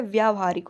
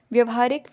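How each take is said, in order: First: व्यावहारिक with a long व्या; correct form. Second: व्यवहारिक with a short व्य; wrong form. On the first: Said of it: "व्यावहारिक होता है". (व्यावहारिक सही रूप, लंबा आ) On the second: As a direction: say व्यवहारिक, with a short first vowel. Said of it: "व्यवहारिक नहीं होता है". (व्यवहारिक गलत रूप) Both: Shown as a demonstration.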